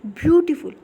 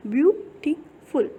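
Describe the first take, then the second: First: Said in the usual way. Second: beautiful slowly in three parts, view, टी, फुल; syllable by syllable. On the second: Shown as a demonstration. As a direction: pause after each syllable of beautiful to count them. (Beautiful को धीरे, तोड़-तोड़ कर) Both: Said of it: "आप एक बार बोल करके देखिए".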